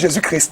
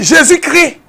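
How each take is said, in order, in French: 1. 'Christ' se termine par ses consonnes finales prononcées. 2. 'Christ' se termine par une voyelle nue, comme 'crie'. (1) "laissez-nous Jésus-Christ là" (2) "D'autres aiment dire Jésus crie. Il crie quoi?"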